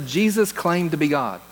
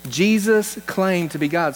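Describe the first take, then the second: First: Said in the usual way. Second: Jesus stressed, slower and weighty; solemn, deliberate restatement; slow, emphatic repeat. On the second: Shown as a demonstration. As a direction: drive the line home slowly, leaning on "Jesus".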